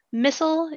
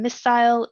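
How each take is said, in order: First: "missile" with a short, swallowed second syllable, like "MISS-ul"; American "missile", pronounced "MISS-ul"; American pronunciation. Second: "missile" with a full "-ile" ending, like "MISS-ile"; British "missile", pronounced "MISS-ile"; British pronunciation. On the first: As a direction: say "missile" the American way, rhyming with "thistle". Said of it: "is the American pronunciation". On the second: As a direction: say "missile" the British way, second syllable rhyming with "mile". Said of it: "is the British pronunciation". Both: Shown as a demonstration.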